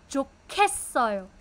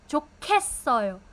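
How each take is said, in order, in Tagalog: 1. Ang katinig sa gitna ay malakas na aspirated na tunog. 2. Ang katinig sa gitna ay malakas na aspirated na tunog.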